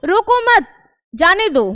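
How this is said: There is a pause right after mat. "विराम चिन्ह था वो मत के पास लग गया"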